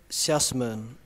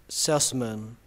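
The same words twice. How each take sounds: The two takes are said the same way.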